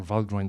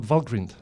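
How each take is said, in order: First: "Valgrind" ending like the word "grind"; long-i pronunciation. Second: "Valgrind" ending like "grinned"; short-i pronunciation. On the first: Lecturer offering the alternative tool name, "Valgrind" with long i. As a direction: say "Valgrind" with an "eye" vowel in the second syllable. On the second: Lecturer naming a debugging tool for the audience, "Valgrind" with short i. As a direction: say "Valgrind" with a short i in the second syllable. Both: Shown as a demonstration. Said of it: "depending how you pronounce it".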